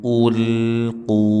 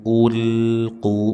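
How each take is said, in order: The two takes are said the same way.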